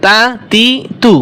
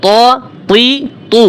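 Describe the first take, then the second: First: তা তি তু with thin t, spaced apart; light ta. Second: ত তি তু with thick, dark t, spaced apart; separated, emphatic ত তি তু; heavy ta. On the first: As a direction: keep each of তা তি তু light. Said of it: "এটা পাতলা". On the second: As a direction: make each of ত তি তু full and heavy. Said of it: "মোটা". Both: Shown as a demonstration.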